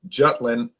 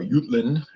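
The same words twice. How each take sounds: First: Jutland is said with an English pronunciation. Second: Jutland is said with a German or Danish pronunciation. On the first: "as the British say" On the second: "as the Germans and Danish would say"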